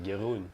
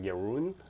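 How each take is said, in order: First: The name is pronounced with Dutch sounds. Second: The name is pronounced with English sounds. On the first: The speaker calls it right. "I should just pronounce it like the Dutch way" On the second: The speaker calls it wrong. "your name in English. It, it then it sounds really weird"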